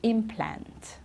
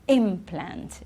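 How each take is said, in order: First: The stress is on the second syllable. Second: The stress is on the first syllable. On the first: It is used as a verb. "when it's the verb, the stress is at the end" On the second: It is used as a noun. "if it's a noun, ... It's right at the beginning"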